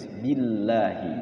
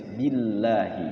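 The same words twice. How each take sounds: First: The 'l' in Allah is pronounced light and thin. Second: The 'l' in Allah is pronounced light and thin.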